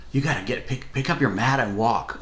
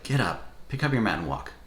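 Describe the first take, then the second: First: A mild eager lift on "pick up your mat and walk"; excited invitation. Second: A mild mock of a curt order: "Get up, pick up your mat and walk"; short and irritated. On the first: Retold or imitated. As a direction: say "walk" like good news, lightly voiced. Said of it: "was one of excitement". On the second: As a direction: toss off "walk" as a terse command, understated. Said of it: "almost like he's short".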